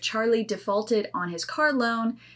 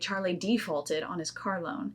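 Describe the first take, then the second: First: It uses the General American stress pattern. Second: It uses the Southern American stress pattern. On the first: The speaker calls it right. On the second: The speaker calls it wrong.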